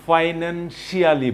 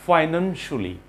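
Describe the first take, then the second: First: "financially" drawn out with a full "shi-aa-li" ending; common mispronunciation. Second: "Financially" ending in a short "shuli"; right pronunciation. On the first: Teacher mimics what learners usually say, mispronunciation. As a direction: say "financially" slowly as "finan-shee-AH-lee". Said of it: "বলি আমরা". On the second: Teacher models the word for learners, correct pronunciation. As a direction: say "Financially" with the ending squeezed to "shuh-lee". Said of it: "This is the right pronunciation". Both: Shown as a demonstration.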